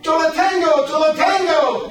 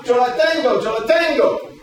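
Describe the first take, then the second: First: High, loud screamed Yo la tengo; screaming. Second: High, loud Yo la tengo; called out in Spanish. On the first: Retold or imitated. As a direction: scream it to claim the ball. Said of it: "Richie starts screaming". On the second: Shown as a demonstration. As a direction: shout it like calling the catch. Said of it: "you go".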